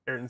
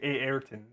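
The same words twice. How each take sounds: First: The first vowel is said once, plainly. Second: The first vowel is drawn out, doubled.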